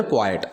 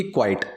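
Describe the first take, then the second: First: क्वाइट as two syllables, "KWAI-et"; क्वाइट with a separate second vowel; pronunciation of quiet. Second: क्वाइट as one syllable, "kwite"; क्वाइट with one gliding vowel; pronunciation of quite. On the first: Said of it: "इसकी pronunciation है". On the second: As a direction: say क्वाइट like English quite, rhyming with kite. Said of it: "उसकी क्वाइट". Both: Shown as a demonstration.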